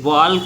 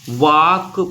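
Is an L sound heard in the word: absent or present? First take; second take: present; absent. First: The word is said with an L sound. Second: The word is said with no L sound. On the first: The speaker calls it wrong. "वाल्क नहीं पढ़ते इसको" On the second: The speaker calls it right. "वाक पढ़ते"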